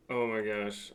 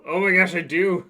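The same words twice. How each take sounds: First: Said in the usual way. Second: Loud, high, thrilled surprise; excited shout. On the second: Real, not acted. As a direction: blurt it out with delight. Finds the old camera.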